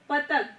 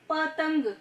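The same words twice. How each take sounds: First: No nasal sound comes before the final consonant. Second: A nasal sound comes before the final consonant. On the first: The speaker calls it wrong. "अगर पतंग में अंग की मात्रा नहीं होगा तो इसका प्रोनाउंसिएशन कैसे करेंगे हम?" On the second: The speaker calls it right. "जैसे पतंग"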